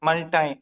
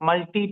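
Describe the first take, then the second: First: The word ends with an 'eye' sound. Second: The word ends with an 'ee' sound. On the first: "American English లో మల్టాయ్ అంటారు" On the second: "British English లో మనం ఏమంటాం? మల్టీ tasking అంటాం"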